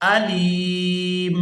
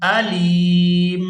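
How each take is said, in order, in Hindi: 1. शब्द का आख़िरी हिस्सा सिर्फ़ 'm' की आवाज़ है। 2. शब्द का आख़िरी हिस्सा सिर्फ़ 'm' की आवाज़ है।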